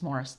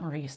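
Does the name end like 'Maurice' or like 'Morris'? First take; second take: Morris; Maurice. First: The name ends with a short 'ris' sound. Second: The name ends with a long 'reese' sound. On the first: The speaker calls it right. "It's Morris" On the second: The speaker calls it wrong. "it's not Maurice, and I always say Maurice"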